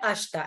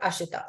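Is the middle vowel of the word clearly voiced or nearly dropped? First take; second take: nearly dropped; clearly voiced. First: The middle vowel is nearly dropped. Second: The middle vowel is clearly voiced. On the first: The speaker calls it right. "usko pronounce karte hai ashita" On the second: The speaker calls it wrong. "and not ashita"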